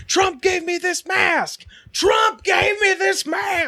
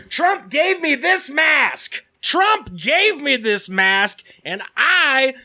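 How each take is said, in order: First: High, slow shouted rant; much higher, slow mock yell; imitated shout. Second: High, slow, shouted rant; much higher, slow mock shout; imitating a yelling woman. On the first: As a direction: bellow it like the raging woman. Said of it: "she's just like". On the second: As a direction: mimic a ranting stranger yelling. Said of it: "loudly yelling at everybody".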